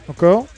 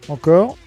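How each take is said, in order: The two takes are said the same way.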